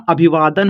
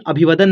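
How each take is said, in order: First: अभिवादन with a long, drawn-out वा; correct reading. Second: अभिवादन with a short va, like अभिवदन; wrong reading. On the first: Teacher corrects the guess, अभिवादन with long वा. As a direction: say अभिवादन slowly, holding the vaa. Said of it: "अभिवादन होता है". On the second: Teacher shows the mistaken guess, अभिवादन said as अभिवदन. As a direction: misread अभिवादन, clipping वा to व. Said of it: "अभिवादन नहीं होता". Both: Shown as a demonstration.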